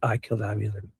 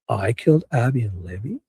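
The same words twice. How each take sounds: First: The voice falls at the end like a statement. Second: The voice rises at the end like a question. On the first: He is confessing to the killings. "if you clip it out of context, yeah, he said" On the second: He is echoing an accusation back as a question. "like in a question form"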